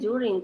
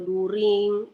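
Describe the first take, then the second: First: The word begins with a 'ju' sound. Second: The word begins with a plain 'du' sound. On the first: The speaker calls it right. "ini kan ya bacanya juring" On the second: The speaker calls it wrong. "kalian bacanya daring atau during, kan nggak bagus didengar"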